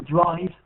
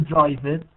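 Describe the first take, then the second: First: "drive," as one syllable closed on v; teacher models "drive," with no extra vowel at the end; correct ending. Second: "drive it," with an added vowel after the v; wrong extra syllable. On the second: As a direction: imitate the learner's two-syllable "drive it,". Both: Shown as a demonstration. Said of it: "not drive it".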